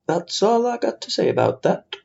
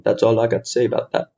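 First: Amateur movie impression, pitched up; Forrest Gump. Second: Understated film-character impression; lightly put-on Southern American accent; a half-hearted movie quote, near usual pitch; Forrest Gump. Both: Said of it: "That's also my Forrest Gump accent".

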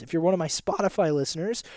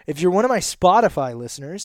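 First: A sudden squeaky crack at the phrase end; voice squeak. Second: Said in the usual way. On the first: Real, not acted. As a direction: voice cracks upward on listeners. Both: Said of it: "did you hear that squeak there?".

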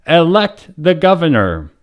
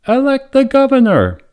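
First: Crowd chant. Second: High small voice calling out; a lone little voice from the crowd; small voice crying out. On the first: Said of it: "echoed with the chant". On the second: A small voice from the crowd calls out, high and bright. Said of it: "a small voice cried out". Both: A narrator's reading.

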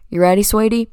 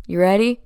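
First: Louder Southern Kentucky dad impression; imitated Southern dad, a bit louder; dad's Southern accent. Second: A hint of Kentucky in a dad's voice; dad's Southern accent. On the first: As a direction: do dad's Kentucky twang, lightly. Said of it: "this is how he actually talks". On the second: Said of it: "Now this is how he actually talks".

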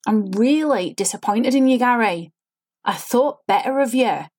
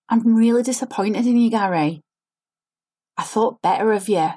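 First: Sing-song line with pushed intonation, no real feeling; fake forced inflection. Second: Over-inflected line, feeling put on; fake forced inflection. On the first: Coach shows students how a lifeless, over-inflected line sounds. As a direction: work the tune of the line instead of meaning it. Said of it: "When you start hearing your lines sounding like that". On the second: Acting coach demos a fake, forced line read. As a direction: act the line falsely, pushing colour into every word. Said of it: "Can you see I'm trying to put a feeling in the line".

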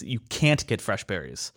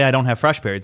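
First: "can't" leaned on, then dropping low and softer; stress on can't. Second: Said in the usual way. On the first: Shown as a demonstration. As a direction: make "can't" the point, falling away after it. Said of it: "It's another thing". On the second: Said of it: "it's one thing to say".

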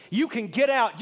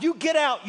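First: Firm, slightly raised order to leave; quoting a pastor telling people to leave, firm and raised; stern quoted rebuke. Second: Pushed higher and louder, jabbing "You"; quoting a pastor who snaps, pitch and volume up; escalating quoted yell. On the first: Pastor ordering Democrats out, a mild mock rebuke. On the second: Pastor ordering Democrats out, rising mock yell. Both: Retold or imitated.

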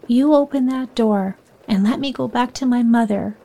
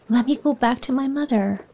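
First: Put-on understated passionate cry to the old lady; passionate plea. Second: Said in the usual way. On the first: A narrator's reading. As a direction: push the demand with mild passion. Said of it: "Clara cried passionately". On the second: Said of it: "she screamed".

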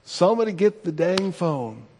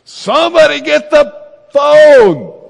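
First: Higher-pitched, restrained retold scolding; mildly exasperated recap of a yell; mock chastising. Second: Full-volume high holler, last word stretched; exasperated shout, slow and loud; yelling through the house. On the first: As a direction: replay the scolding without shouting. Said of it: "how I was chastising all of them". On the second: Retold or imitated. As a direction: bellow it to everyone in the house. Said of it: "I just yell out in the whole house".

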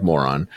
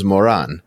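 First: "moron" said like the English insult; English-accent pronunciation. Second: "Moran" said as the Israeli name; Israeli name pronunciation. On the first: Explaining it sounds just like moron, English pronunciation. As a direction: say "moron" as an English speaker would. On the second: Telling her name was Moran, Israeli pronunciation. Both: Shown as a demonstration. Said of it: "with the English accent".

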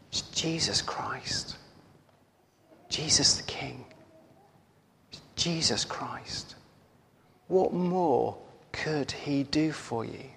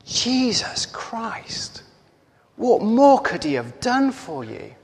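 First: Slow, whispery, reverent voice; near-whispered words from a vision; hushed retelling. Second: Higher-pitched indignant outburst, held back in volume; mother's outrage, acted without shouting; furious retold shout. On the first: Retold or imitated. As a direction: speak it very softly and slowly, pausing between phrases. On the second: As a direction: draw out the name slowly, then demand an answer. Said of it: "she shouts at him".

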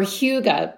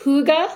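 First: "hygge" said as HYOO-guh; alternative pronunciation of hygge. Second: "hygge" said as HOO-guh, pitched higher; pronunciation of hygge. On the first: Podcaster offering another way to say hygge, "hygge" as HYOO-guh. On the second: Podcaster showing how Danish hygge is pronounced, "hygge" as HOO-guh. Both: Shown as a demonstration. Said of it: "It's pronounced".

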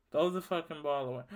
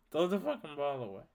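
Both takes have the same delivery.

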